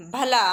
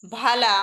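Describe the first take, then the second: First: भला said loud, first vowel brief; short "a" vowel. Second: भाला said loud, first vowel drawn out; long "aa" vowel. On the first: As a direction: keep the "a" after भ short in भला. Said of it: "ए के उच्चारण में कम समय लगता है". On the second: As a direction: hold the "aa" after भ in भाला. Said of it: "इससे थोड़ा अधिक समय लगता है". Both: Shown as a demonstration.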